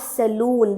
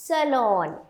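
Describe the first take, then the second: First: The second syllable sounds like 'loon'. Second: The second syllable sounds like 'lawn'. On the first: The speaker calls it wrong. "It is not saloon" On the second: The speaker calls it right. "It's lawn"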